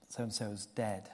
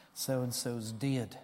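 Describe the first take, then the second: First: Said in the usual way. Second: Put-on drawn-out, soft broad Batley accent. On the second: Boy breaking news of a death to teacher, broad Batley accent. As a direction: say it slowly in broad Batley dialect. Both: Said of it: "I'll say it how he said it".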